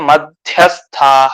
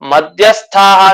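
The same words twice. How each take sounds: First: The middle consonant is an aspirated dh. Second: The middle consonant is a plain d, unaspirated. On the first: Those who live in the middle of the earth. The speaker calls it right. "ಆ ಮಹಾಪ್ರಾಣ ಏನಿದೆಯಲ್ಲ ಅದನ್ನ ಗಮನಿಸ್ಕೊಳ್ತಾ ಇರ್ಬೇಕು" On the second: Those who drink liquor. The speaker calls it wrong. "ಮಧ್ಯ ಅಂತ ಮಾಡ್ಬಿಡ್ತೀವಿ"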